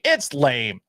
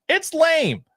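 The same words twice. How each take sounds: First: Said in the usual way. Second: Much higher, squeaky repeat. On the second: Shown as a demonstration. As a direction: jump way up into a squeak. Repeats line two ways.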